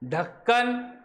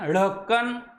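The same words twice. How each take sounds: First: The first sound is a plain aspirated stop. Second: The first sound is a flapped aspirated sound. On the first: The speaker calls it right. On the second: The speaker calls it wrong.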